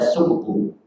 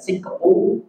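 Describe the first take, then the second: First: The first vowel is u. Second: The first vowel is i. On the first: "bisa dibaca suktu" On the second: "bisa dibaca siktu"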